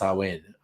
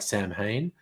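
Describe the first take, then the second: First: It is not read like the English 'Sam Hain'. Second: It is read like the English words 'Sam Hain'. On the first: The speaker calls it right. "but it's actually pronounced Samhain" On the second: The speaker calls it wrong. "in English, it looks like Sam Hain"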